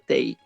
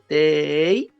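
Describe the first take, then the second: First: The syllable is said short and plain. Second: The syllable is drawn out and prolonged. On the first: "antes solamente decía tei" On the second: "prolongadas... por qué va así?"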